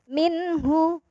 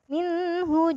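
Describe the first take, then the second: First: The n sound is pronounced clearly and distinctly. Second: The n sound is blurred and not clearly pronounced. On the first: The speaker calls it right. "cara bacanya adalah jelas" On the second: The speaker calls it wrong. "nggak boleh minhu"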